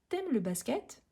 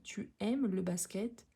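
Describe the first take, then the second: First: The pronoun is reduced to a single consonant. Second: The pronoun is said as a full syllable. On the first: This is the casual spoken form. "quand on s'exprime à l'oral, parfois on dit t'aimes" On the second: This is the form that is written. "quand on écrit, on écrit tu"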